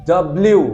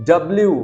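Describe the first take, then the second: The two takes are said the same way.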